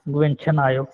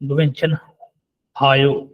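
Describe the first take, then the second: First: The h sound is barely touched, almost silent. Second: The h sound is pronounced clearly and fully. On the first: The speaker calls it right. "ऐसे बोलेंगे" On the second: The speaker calls it wrong. "ऐसे नहीं बोलेंगे"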